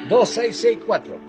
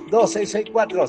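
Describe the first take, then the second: First: The number is said slowly. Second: The number is said fast.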